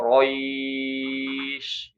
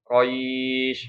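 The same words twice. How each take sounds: First: The vowel before the end is held very long. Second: The vowel before the end is held briefly. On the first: "ataupun enam" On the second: "bisa dibaca panjang dua"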